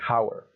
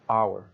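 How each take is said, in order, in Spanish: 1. La palabra empieza con un sonido h audible. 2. La palabra empieza con una vocal, sin h. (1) "nada de" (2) "la H es completamente muda"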